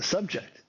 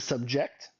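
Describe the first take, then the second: First: The stress is on the first syllable. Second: The stress is on the second syllable. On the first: The speaker calls it right. "it's a subject" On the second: The speaker calls it wrong. "English is a subject. Nope"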